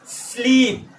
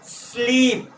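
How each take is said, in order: No difference in how they are said.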